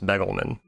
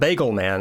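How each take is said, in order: First: The first vowel sounds like in 'beg'. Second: The first vowel sounds like in 'bag'. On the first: The speaker calls it right. "I think it's Begelman" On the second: The speaker calls it wrong. "Not Bagelman"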